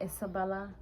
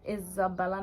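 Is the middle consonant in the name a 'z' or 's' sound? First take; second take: s; z. First: The middle consonant is a hissing s sound. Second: The middle consonant is a buzzing z sound. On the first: The speaker calls it wrong. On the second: The speaker calls it right.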